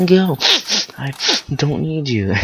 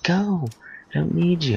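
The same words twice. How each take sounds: First: High, loud, broken-up mock tantrum yell; halting, squealed imitation of yelling; yelling while wiping face. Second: Squealed play-acted tantrum; retold kid yelling. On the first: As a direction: act a crying kid yelling between wipes. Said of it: "trying to wipe my face as I yell". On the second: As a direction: imitate a child sending parents away. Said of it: "I'm yelling at them now".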